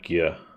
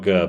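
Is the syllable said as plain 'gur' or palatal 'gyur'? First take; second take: palatal 'gyur'; plain 'gur'. First: The syllable starts with a g gliding into y. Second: The syllable starts with a plain hard g. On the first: The speaker calls it right. "but like a gyr" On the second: The speaker calls it wrong. "it's like not a gur"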